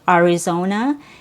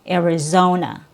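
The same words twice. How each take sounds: First: The first syllable has a vowel other than 'eh'. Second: The first syllable has a short 'eh' vowel. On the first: It reflects a regional accent. "more of a regional accent" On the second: It is the standard, neutral pronunciation. "the standard, most people neutral pronunciation will be with a short E sound plus R"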